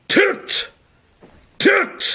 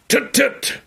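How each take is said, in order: First: It is said slowly. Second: It is said quickly.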